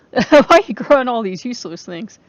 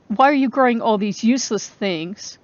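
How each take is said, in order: First: The sister's jab again, pushed louder and rising; louder mocking repeat. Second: Said in the usual way. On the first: Quoting her critic a second time, louder and scornful. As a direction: throw her question back, louder and incredulous. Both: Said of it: "she's saying".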